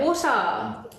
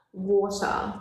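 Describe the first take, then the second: First: "water" with a clear t and no r, falling; her own "water". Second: Said in the usual way. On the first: Shown as a demonstration. Teaching her friend how she says "water". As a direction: say "water" crisply with a falling end. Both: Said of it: "That's how you say it".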